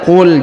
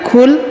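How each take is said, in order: First: It starts with a deep q from the throat. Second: It starts with a plain front k sound. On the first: The speaker calls it right. "Ini huruf qa" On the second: The speaker calls it wrong. "jangan kul"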